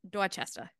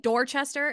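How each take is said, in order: First: It is said in a local Boston accent. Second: It is said in a plain, non-local accent. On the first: The speaker calls it right. "it's Dorchester" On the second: The speaker calls it wrong. "But you don't say"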